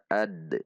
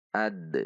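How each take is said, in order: First: The final d is released with a slight bounce. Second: The same.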